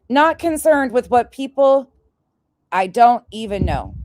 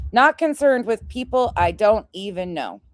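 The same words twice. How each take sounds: First: Mocking quote. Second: Said in the usual way. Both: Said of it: "this is what she wrote".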